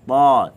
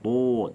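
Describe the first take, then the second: First: The vowel is open, with a heavy t. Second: The vowel is rounded, sounding like o. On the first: The speaker calls it right. "Ta tebal" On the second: The speaker calls it wrong. "Jangan to, tak boleh"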